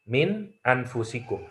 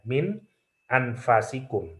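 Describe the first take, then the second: First: The vowel after the f is 'u'. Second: The vowel after the f is 'a'. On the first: "kalau dengan dhammah min anfusikum" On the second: "fa-nya bisa dibaca fathah"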